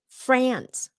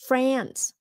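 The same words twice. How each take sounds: First: It is said with a short 'a' like apple. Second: The same.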